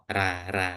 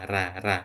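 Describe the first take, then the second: The two takes are said the same way.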